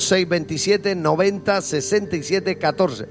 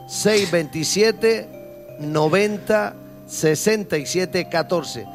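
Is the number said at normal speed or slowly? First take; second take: normal speed; slowly. First: The number is said at normal speed. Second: The number is said more slowly.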